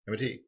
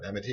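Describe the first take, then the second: First: The letter names are said at an ordinary pace. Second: The letter names are run together quickly.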